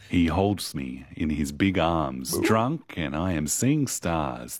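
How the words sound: It is read in a sultry, seductive tone.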